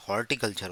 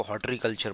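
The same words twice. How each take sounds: First: "हॉर्टिकल्चर" with r before t: hor-ti-culture; correct pronunciation. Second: "हॉर्टिकल्चर" misread as "hotri-culture"; common mispronunciation. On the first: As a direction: say "हॉर्टिकल्चर" as hor-ti, not hot-ree. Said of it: "हॉर्टिकल्चर होता है". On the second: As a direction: say "हॉर्टिकल्चर" with the middle slurred into "tree": hotri-culture. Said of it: "हॉटरी नहीं होता". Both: Shown as a demonstration.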